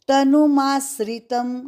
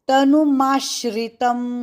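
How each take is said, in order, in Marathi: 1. हे संयुक्ताक्षर 's' ध्वनीने उच्चारले जाते, 'sra'. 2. हे संयुक्ताक्षर 'sh' ध्वनीने उच्चारले जाते, 'shra'. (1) "गलत" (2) "यहाँ पे श्री"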